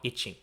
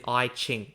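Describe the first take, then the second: First: "I Ching" run together like "itching"; mispronunciation demo. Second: "I Ching" said with "I" as in "eye"; pronunciation demo. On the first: Host showing what it is not, "I Ching" said like "itching". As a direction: say "I Ching" with a short first vowel, as itch-ing. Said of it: "not I Ching". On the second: Host clarifying the book's name, pronouncing "I Ching" as EYE-ching. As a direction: say "I Ching" as EYE-ching, two clear words. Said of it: "as in I Ching, not". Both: Shown as a demonstration.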